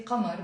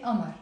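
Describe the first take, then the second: First: Qamar with a throaty q at the start; qaf pronounced. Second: Amar starting on a glottal stop, no q; qaf dropped. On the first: Teacher showing how some Druze might say it, qaf pronounced. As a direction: sound the qaf that begins Qamar. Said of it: "pronounce the qaf. They might say". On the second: Teacher showing general Lebanese usage, qaf dropped. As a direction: drop the qaf, begin Amar on the vowel. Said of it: "we tend to pronounce it Amar". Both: Shown as a demonstration.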